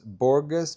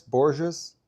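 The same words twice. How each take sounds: First: Borges with a hard g, BOR-guss, higher pitch; Borges tried with the g of "go"; trying a pronunciation. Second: Borges tried with g like the s in "measure"; trying a pronunciation. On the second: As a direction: say Borges as BOR-zhuss, tentatively. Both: Shown as a demonstration. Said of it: "how do you say Borges".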